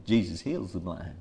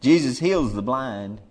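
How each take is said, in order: First: Hushed. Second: Said in the usual way. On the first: Real, not acted. Preacher confiding to the congregation, hushed and low. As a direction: lower and softer, drawn in close. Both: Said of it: "Let me tell you something".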